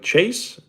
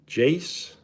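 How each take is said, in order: First: The name begins with a ch sound. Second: The name begins with a j sound.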